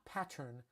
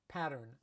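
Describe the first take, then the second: First: It is said in a different, non-Los Angeles accent. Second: It is said in a Los Angeles accent. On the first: "not pattern" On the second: "I have a Los Angeles accent"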